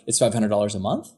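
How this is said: The voice rises at the end. The speaker sounds doubtful and seeks approval. The speaker calls it wrong. "their inflection goes up at the end"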